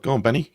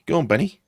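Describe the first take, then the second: First: Urging on. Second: Higher, louder urging shout. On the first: Urging a player on. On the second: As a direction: push him on harder. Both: Real, not acted.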